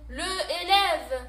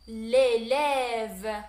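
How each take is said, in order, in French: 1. La voyelle de l'article est gardée devant le nom. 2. La voyelle de l'article tombe et se lie au nom. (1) "Je peux pas prononcer ce mot" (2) "نحي ال e وندير apostrophe"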